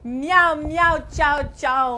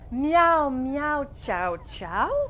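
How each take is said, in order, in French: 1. La phrase est dite vite. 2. La phrase est dite lentement. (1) "on va le dire plus vite maintenant" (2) "la dire au ralenti"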